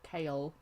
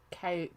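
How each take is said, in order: First: The name sounds like the word kale. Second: The same.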